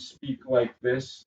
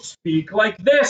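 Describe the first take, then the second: First: It is said flat and monotone. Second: It is said with lively energy.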